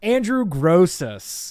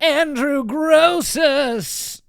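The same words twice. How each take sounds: First: It is said in his normal voice. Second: It is said in a Crypt Keeper announcer voice.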